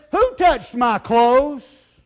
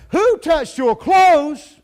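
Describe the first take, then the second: First: Slow, louder, searching question; a hint of Jesus, slow and louder; Jesus asking the crowd. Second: Slow, much louder and higher shout; hammered-out preaching shout; shouted question. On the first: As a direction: draw each word out slowly as Jesus. Jesus turns, asks the crowd. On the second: Acted. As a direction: boom the question out to the whole crowd. Preacher repeats Jesus' question.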